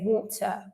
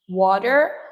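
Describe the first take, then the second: First: British accent, with a clear t sound. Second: American accent, with the t flapped like d. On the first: "while British English, you would say water" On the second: "for American speakers, you say water, the T becomes a flat D"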